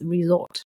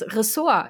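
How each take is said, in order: First: It sounds like the English word for a holiday spot. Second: It sounds like the German word for department. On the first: The speaker calls it right. "Es ist ja das mit einem S, Resort" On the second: The speaker calls it wrong. "wird oft als Ressort im Deutschen plötzlich ausgesprochen, als ob das der Fachbereich das Ressort wäre"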